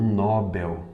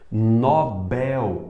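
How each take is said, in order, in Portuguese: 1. A tônica está na primeira sílaba. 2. A tônica está na última sílaba. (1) "e não Nobel" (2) "Nobel e não"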